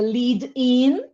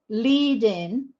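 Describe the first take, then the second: First: The stress falls on the word in. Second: The stress falls on the word lead. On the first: It is the verb meaning to introduce something. "then the stress is on the particle" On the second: It is the noun naming a lesson stage. "Lead in is the noun"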